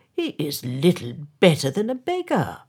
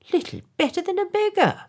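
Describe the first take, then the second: First: Said in the usual way. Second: Much higher, fast, fawning echo; parroting yes-men. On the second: A narrator's reading. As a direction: squeak the mayor's words back eagerly. Councillors parrot the mayor.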